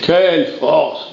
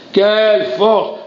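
First: Said in the usual way. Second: Slow and pitched higher, building awe; rising exclamation. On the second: Acted. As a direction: lift the second one up in wonder.

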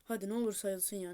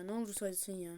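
First: Said in the usual way. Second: Whispered prayer; whispered plea. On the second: Real, not acted. Gamer begs the game to count it, whispered plea. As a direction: plead without voice.

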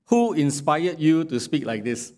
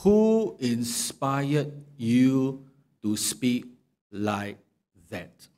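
First: Mocking question with "who" stressed; sarcastic question. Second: Very slow, deliberate, fading to a hush; pointed question. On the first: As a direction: sneer it as a sarcastic jab. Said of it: "So this drips with sarcasm". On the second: Acted. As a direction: drag it out, homing in on him. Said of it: "That's why Job questioned him".

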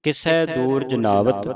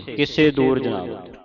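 First: ਕਿਸੈ ending in open "sai"; correct vowel. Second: ਕਿਸੇ ending in closed "se"; common misreading. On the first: Teacher models the line for the class, correct vowel. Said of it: "ਕਿਵੇਂ ਉਚਾਰਨ ਕਰਨੀ ਹੈ". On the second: Teacher quotes how congregations read it, common misreading. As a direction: say ਕਿਸੇ with a plain "e" at the end. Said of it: "ਤੇ ਸੰਗਤਾਂ ਪੜ੍ਹਦੀਆਂ ਨਾ ਕਿਸੇ". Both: Shown as a demonstration.

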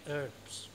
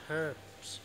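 Both takes have the same delivery.

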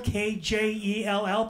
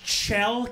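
First: K J E L L spelled slowly, each letter apart; spelling the name for the crowd. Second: Name pronounced correctly; Kjell said Shell. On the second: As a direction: give Kjell its Swedish sh sound. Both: Shown as a demonstration. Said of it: "pronounced Kjell".

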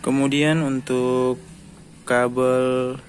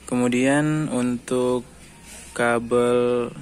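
No difference in how they are said.

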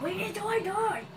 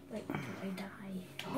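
First: Higher, called out at the dragon; exclaimed retort. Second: Much softer, lower mutter to himself; muttered aside. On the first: Gamer calling out at the Ender Dragon, higher exclaim. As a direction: throw it at the dragon. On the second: Gamer grumbling to himself mid-fight, soft mutter. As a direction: say it under your breath. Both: Real, not acted. Muttered then repeated loudly.

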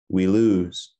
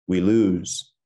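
No difference in how they are said.

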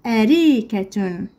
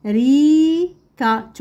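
First: "أريكة" carefully, joined into one word; slow whole word. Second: "أريكة" split up, long rising middle syllable. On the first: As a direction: say "أريكة" slowly without breaks. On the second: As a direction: stretch and separate the syllables of "أريكة". Teacher splits word, then joins it. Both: Shown as a demonstration.

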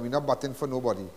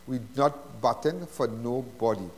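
First: Said in the usual way. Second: Each word laid down slowly; slow, deliberate repeat. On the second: Real, not acted. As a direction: drive the point home word by word, "not" leaning hardest.

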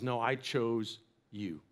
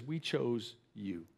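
First: Slow, much softer and lower, sincere; tender reassurance. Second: Slow, much softer and lower, tender; tender reassurance. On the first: Preacher voices God reassuring the doubting listener, hushed and slow. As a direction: let it land gently and slowly. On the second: Mother quietly reassures her adopted son, slow and tender. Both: Retold or imitated.

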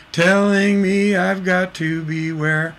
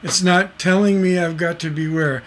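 First: "Telling me", a small break, then "I've got to beware"; slower, let the pause after "me" land; slow, with a stop after "Telling me". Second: Said in the usual way. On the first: Shown as a demonstration. Teacher demonstrating the sung phrasing to students, slower with a pause. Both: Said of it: "Hear the difference?".

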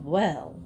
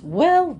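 First: Said in the usual way. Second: High, louder first well of wonder; a wondering cry at the sight; amazed exclamation. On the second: A narrator's reading. Missus Wiggins marvelling at first seeing Florida, amazed.

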